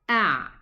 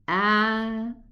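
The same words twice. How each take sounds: First: The ayn is made in the middle throat. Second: The ayn is made outside the middle throat. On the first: The speaker calls it right. "go down in the middle part of the throat and pronounce a ayn sukun" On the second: The speaker calls it wrong. "This is not a proper ayn"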